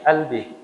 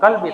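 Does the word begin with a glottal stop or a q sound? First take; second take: glottal stop; q sound. First: The word begins with a glottal stop. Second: The word begins with a deep q sound. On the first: "Kayak di logat Mesir tuh Mesir qaf itu dibacanya hamzah" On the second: "bukan qalbi"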